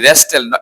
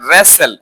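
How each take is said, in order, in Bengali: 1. মাঝখানে t ধ্বনিটি উচ্চারিত হয়। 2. মাঝখানে t ধ্বনিটি নীরব থাকে। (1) "রেস্টেল না" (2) "এখানেও টি সাইলেন্ট থাকবে"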